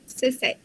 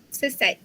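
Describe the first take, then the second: Both takes have the same delivery.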